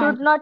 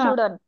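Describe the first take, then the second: First: It is said as two full separate words. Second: It is said as one shortened contracted word. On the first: "expanded form" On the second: "contracted form"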